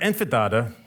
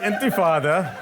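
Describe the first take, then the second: First: The word begins with 'inf' and has a 'd'. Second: The word begins with 'int' and has an 'f'. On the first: The speaker calls it wrong. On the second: The speaker calls it right.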